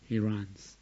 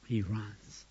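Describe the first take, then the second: No difference in how they are said.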